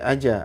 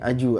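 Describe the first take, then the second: First: The final bounce sounds like an a vowel. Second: The final bounce sounds like a u vowel. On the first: "Enggak boleh aja" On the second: "aju, aju enggak boleh"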